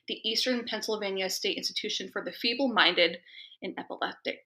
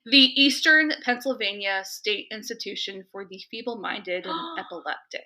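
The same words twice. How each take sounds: First: The name is read at a normal, quicker pace. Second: The name is read slowly, as if dictating.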